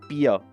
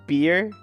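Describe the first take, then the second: First: The word is said with a German sound. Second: The word is said with an English sound. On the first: "we say beer. Like it's a little less English sounding" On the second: "like you say beer"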